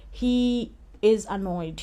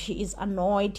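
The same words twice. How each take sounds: First: Slowed right down, each word of "He is annoyed" given weight; leaning on "is" in "He is annoyed" to insist; slow emphatic. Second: Said in the usual way. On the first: Shown as a demonstration. A vlogger stressing to viewers that he is annoyed, slowly.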